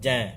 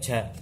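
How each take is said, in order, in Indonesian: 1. Diucapkan tanpa hembusan udara. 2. Diucapkan dengan hembusan udara. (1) "tidak boleh ada udara yang terasa di telapak tangan kita" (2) "tidak boleh ja, tidak boleh sampai ada udara yang terasa"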